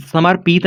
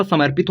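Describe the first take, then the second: First: समर्पित split as समर-पीत, with long ee; wrong reading. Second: समर्पित joined, with a short i in पि; correct reading. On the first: Teacher shows what the word is not, misread as समर-पीत. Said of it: "समर्पित नहीं होता". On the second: Teacher corrects the guess, समर्पित joined properly. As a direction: say समर्पित as one word, short pit. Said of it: "समर्पित होता है". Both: Shown as a demonstration.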